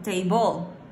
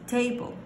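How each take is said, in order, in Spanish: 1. El acento está en la segunda sílaba. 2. El acento está en la primera sílaba. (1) "No puedo decir table" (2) "es table"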